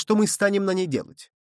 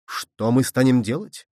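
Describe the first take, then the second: First: Higher-pitched question falling away; raised falling question. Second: Slow, indignant echo of the question; menacing exclamation. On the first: Someone asks what to do on the Moon, raised falling question. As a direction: ask it high, let the end drop. First take of echoed question. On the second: Barbicane stamps as he echoes the question, slow menacing exclamation. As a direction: throw the question back slowly, rising at the end. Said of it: "воскликнул Барбикен, грозно топая ногой". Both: A narrator's reading.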